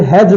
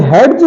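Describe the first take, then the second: First: "हेज" said hej, no separate d; silent D. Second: "हेड्ज" said hed-j, d heard; sounded D. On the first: Teacher giving the correct hedge, silent D. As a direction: go straight to j in "हेज". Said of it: "इसे हेज बोलते हैं". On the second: Teacher showing the wrong hedge, sounded D. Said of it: "इसे हेड्ज नहीं बोलते". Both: Shown as a demonstration.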